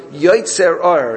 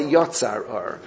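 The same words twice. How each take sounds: First: "Yotzer" with an "eh" in the second syllable, drawn out; present-tense form. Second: "Yotzar" with an open "ah" in the second syllable; contrasting wrong form. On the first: Teacher quotes the blessing's exact wording, present-tense form stressed. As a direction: stress "Yotzer Or" slowly and firmly, YOY-tsair. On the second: Teacher rejects a wording the text doesn't use, contrasting form "Yotzar". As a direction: say "Yotzar Or" lower-key, YOT-sar with an "ah". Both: Shown as a demonstration. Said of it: "it doesn't say Yotzar Or".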